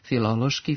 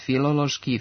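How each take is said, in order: First: The inner syllable has a short rising accent. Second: The inner syllable has no short rising accent. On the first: The speaker calls it right. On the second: The speaker calls it wrong.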